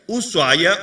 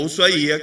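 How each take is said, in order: First: "Ushuaia" with the ai as one gliding syllable; Ushuaia without accented I. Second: "Ushuaia" stressed on a separate I, u-sua-Í-a. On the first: Preacher showing churchgoers a variant name, Ushuaia without accented I. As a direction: say "Ushuaia" as u-SUA-ya, no separate stressed I. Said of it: "como le dicen algunos". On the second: Preacher correcting the city's name, stress on the I of Ushuaia. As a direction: break the diphthong in "Ushuaia" and lean on the Í. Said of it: "un acento en la I". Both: Shown as a demonstration.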